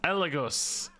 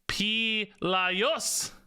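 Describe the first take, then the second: First: The name begins without a P sound. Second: The name begins with a P sound. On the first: "maybe the P is silent and it's Elegos" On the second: "maybe the G has a J sound or a Y sound"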